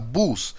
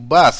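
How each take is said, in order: First: The vowel is a rounded 'oo' sound. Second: The vowel is an open 'ah' sound.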